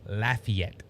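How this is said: It is pronounced the way locals say it. The speaker calls it right. "It's Lafayette"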